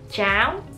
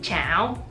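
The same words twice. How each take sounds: First: The pitch rises upward across the word. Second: The pitch dips and then rises, question-like. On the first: It means porridge. "with an upwards tone" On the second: It means frying pan. "with the yo hoi, which is like the question mark"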